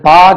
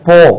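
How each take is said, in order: First: The vowel is an open 'ah' sound. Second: The vowel is a rounded 'aw' sound. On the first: The speaker calls it wrong. "அது பா கிடையாது" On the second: The speaker calls it right. "போ உச்சரிப்பு வந்து போ"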